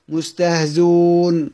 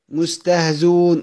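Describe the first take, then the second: First: The hamza is left out entirely. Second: The hamza is left out entirely.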